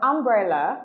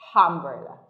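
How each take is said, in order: First: It starts directly with the vowel, no h sound. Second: An h sound is added before the first vowel. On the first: "instead of umbrella" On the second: "you hear them say umbrella"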